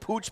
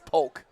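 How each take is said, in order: First: The name is said like 'pooch', ending in 'ch'. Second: The name is said like 'polk', ending in 'k'. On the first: This is how the spelling suggests it is said. The speaker calls it wrong. "It looks like Pooch" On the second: This is how the name is actually said. The speaker calls it right. "but it's Polk"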